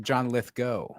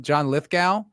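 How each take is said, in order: First: Lithgow ending in GO, like toe; correct pronunciation. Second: Lithgow ending in GOW, like cow; common pronunciation. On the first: Teaching co-host the proper name, Lithgow with an OH ending. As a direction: say Lithgow as LITH-go. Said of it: "actually supposed to pronounce it". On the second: Naming the actor the usual way, Lithgow rhyming with cow. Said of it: "You're supposed to pronounce it". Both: Shown as a demonstration.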